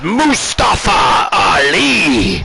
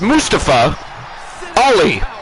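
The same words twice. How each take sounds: First: The name is said with heavy, forceful emphasis. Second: The name is said plainly without extra emphasis. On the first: The wrestler is playing a villain. "If it's if he's a heel, ... they put the emphasis behind it" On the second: The wrestler is playing a hero. "If he's face"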